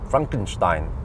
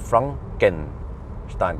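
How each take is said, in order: First: The middle vowel is dropped entirely. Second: The middle vowel is sounded clearly. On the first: The speaker calls it right. "the E goes silent supposedly" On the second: The speaker calls it wrong. "you're supposed to pronounce it not Frankenstein"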